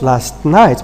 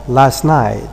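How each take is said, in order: First: The t at the end of last is pronounced. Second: The t at the end of last is dropped. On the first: "is not last night" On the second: "What you obtain normally in rapid colloquial speech"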